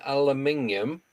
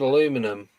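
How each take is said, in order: First: The word is said with five syllables. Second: The word is said with four syllables. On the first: "if I say it the English way" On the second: "I've always said aluminum because I can't say it the English way"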